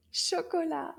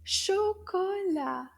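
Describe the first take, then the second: First: Said in the usual way. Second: "Chocolat" slow and high, each syllable stretched; slow recap. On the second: Shown as a demonstration. Teacher reviews the new word, "Chocolat" slow and raised. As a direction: draw out "Chocolat" for learners to follow. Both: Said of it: "Did you remember your new word?".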